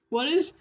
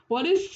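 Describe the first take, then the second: The two takes are said the same way.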